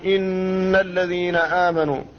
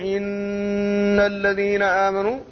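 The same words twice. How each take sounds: First: The nasal hum on the n lasts two beats. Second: The nasal hum on the n is drawn out. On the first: The speaker calls it right. "تكون بمقدار حركتين" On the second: The speaker calls it wrong. "زاد في حق الحرف فجعله بمثابة المد"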